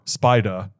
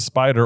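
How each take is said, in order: First: The word ends in a vowel without r. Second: The word ends with a pronounced r.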